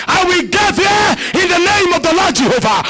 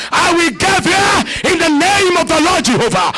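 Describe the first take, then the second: First: Repeated shouted declaration. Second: Shouted declaration. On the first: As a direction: hammer the same vow home. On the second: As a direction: proclaim it with full force. Repeated declaration. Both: Acted.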